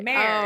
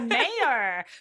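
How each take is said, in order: First: The word is said as one syllable. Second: The word is said with two syllables. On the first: The speaker calls it wrong. "they say mare like a horse" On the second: The speaker calls it right. "it's the mayor"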